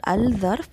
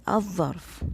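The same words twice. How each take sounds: First: "al-zarf" with a clear l before the dh-like z; lam wrongly sounded. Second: "az-zarf" with a doubled dh-like z, no l; lam assimilated. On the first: Teacher shows the wrong form, l pronounced. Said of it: "it is not al-zarf". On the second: Teacher corrects for learners, lam silent. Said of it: "it is az-zarf". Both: Shown as a demonstration.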